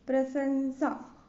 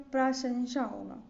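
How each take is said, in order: First: प्रशंसा with S for SH, drawn out; wrong S sound. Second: प्रशंसा with a clear SH; correct SH sound. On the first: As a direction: say प्रशंसा as "prasansa". (प्रशंसा को "प्रसंसा" बोलें) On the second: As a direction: say प्रशंसा as "prashansha". (प्रशंसा में "श" की ध्वनि) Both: Shown as a demonstration.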